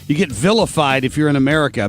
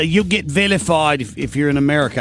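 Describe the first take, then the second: First: It is spoken in the speaker's usual accent. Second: It is spoken in a British accent.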